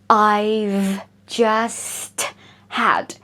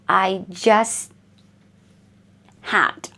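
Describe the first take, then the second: First: The T at the end of just is pronounced. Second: The T at the end of just is dropped. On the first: "you don't have to pronounce I've just had" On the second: "you don't need to pronounce this T"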